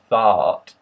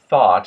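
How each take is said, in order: First: The vowel is said as an open ah. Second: The vowel is a Middle American short O. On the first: "becomes an ah" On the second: "instead of thought"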